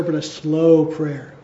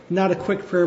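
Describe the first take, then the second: First: Slow, drawn-out words; slow prayer. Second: Said in the usual way. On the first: Shown as a demonstration. Preacher to congregation, said slowly. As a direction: let the words linger slowly.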